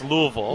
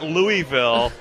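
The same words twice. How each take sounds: First: The city name is said the local way. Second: The city name is said the non-local way. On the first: The speaker calls it right. "If that's how the locals say it" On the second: The speaker calls it wrong. "it's not Louisville"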